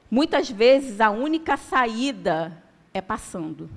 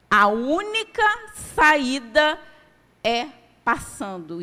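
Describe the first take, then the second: First: Said in the usual way. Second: "única" and "saída" pushed higher and louder; emphatic repeat. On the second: Shown as a demonstration. Preacher repeating the line to the congregation, emphatic. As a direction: drive home "A única saída" as the point. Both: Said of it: "preacher repeats the key line".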